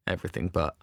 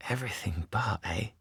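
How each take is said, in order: First: Said in the usual way. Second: Insinuating whisper; knowing whisper. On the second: Acted. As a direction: echo it slyly under the breath.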